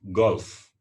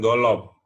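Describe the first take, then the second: First: No vowel is added after the L sound. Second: An extra 'o' vowel follows the L sound. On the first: The speaker calls it right. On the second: The speaker calls it wrong. "bukan golop"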